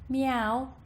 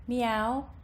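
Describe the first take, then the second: Both takes have the same delivery.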